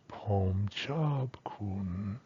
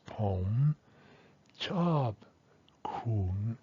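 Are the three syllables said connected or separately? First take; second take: connected; separately. First: The syllables run together, tones blending into each other. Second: Each syllable is said separately, with breaks between. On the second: "in the traditional pronunciation ... they're isolated"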